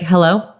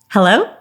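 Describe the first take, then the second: First: The hello is said in a flat, miserable tone. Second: The hello is said with a happy, smiling tone. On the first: The speaker seems unhappy to hear from the caller. The speaker calls it wrong. "I don't sound very excited to hear from you" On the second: The speaker seems friendly and likable. The speaker calls it right. "Here's my happy hello"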